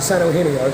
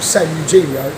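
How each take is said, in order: First: The name is said with a Spanish pronunciation. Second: The name is said with a British pronunciation.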